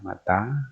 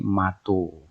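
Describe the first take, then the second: First: Both vowels of the word are a. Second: The word ends in an o vowel. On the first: This is how the A-A dialect says it. "kalau menyebut mata menjadi mata juga ya" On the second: This is how the A-O dialect says it. "yang Aibuka menjadi mato"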